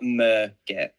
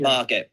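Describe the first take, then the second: First: The first syllable sounds like 'mur'. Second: The first syllable sounds like 'mar'. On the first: The speaker calls it wrong. "not Mergit" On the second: The speaker calls it right. "Margit, by the way"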